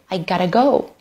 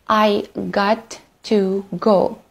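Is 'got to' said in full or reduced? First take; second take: reduced; full. First: Got to is reduced to gotta. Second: Got to is said in full.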